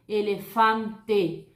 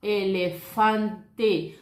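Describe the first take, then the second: First: Elefante said very slowly, final e pronounced as e; slow Spanish demo. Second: Elefante drawn out very slowly, final e clear; slow Spanish demo. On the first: Teacher models elefante very slowly in Spanish. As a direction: end elefante on a clear e, not i. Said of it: "você vai falar esse E". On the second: Teacher models Elefante very slowly in Spanish. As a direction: sound every e in Elefante, no final i. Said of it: "La letra E en español". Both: Shown as a demonstration.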